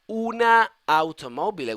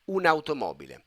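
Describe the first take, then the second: First: Two separate vowels are heard between the words. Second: The words run together with one vowel between. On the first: The speaker calls it wrong. "we have double, you know, vowel, and we try to prevent it" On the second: The speaker calls it right. "this way is a better flow, is a better pronunciation"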